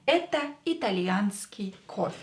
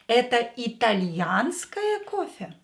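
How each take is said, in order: First: It has the intonation of a plain statement. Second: It has the intonation of a question. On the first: This is an Italian coffee. "This is an Italian coffee statement" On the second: Is this an Italian coffee? "Is this an Italian coffee?"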